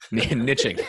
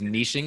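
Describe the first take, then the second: First: The word is said without a French pronunciation. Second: The word is said with a French pronunciation. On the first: The speaker calls it right. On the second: The speaker calls it wrong.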